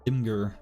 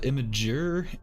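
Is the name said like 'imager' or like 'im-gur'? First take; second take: im-gur; imager. First: The name is said as 'im' plus 'gur'. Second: The name starts like the word 'image'. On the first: "I've always said Imgur, which doesn't sound right at all" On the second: "It's like image, right? But imager"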